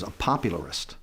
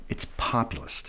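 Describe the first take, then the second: First: "popularist" with an extra "ar" syllable; mispronounced "popularist". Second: "populist" in three syllables, pop-u-list; low, soft correction to "populist", no "ar" in it; corrected pronunciation. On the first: Trump misnames himself to his adviser, mispronounced "popularist". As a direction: say "popularist" in four beats, pop-u-lar-ist, low and soft. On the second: Adviser corrects the candidate's word, "populist" without "ar". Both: Retold or imitated.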